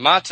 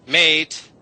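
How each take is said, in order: First: "mate" with a broad ah vowel, "maht"; old pronunciation. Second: "mate" with a modern ay vowel, said higher and louder; modern pronunciation. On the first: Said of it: "So you go from mate". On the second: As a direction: land on the new "mate" with a clear ay. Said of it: "now ah is a". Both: Shown as a demonstration.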